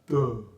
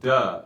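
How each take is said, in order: First: The voice is dopey and hooty, low and covered. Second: The voice is plain, without a hooty quality. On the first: The speaker calls it right. "it's duh. That's the dopey sound" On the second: The speaker calls it wrong. "notice that it's not duh"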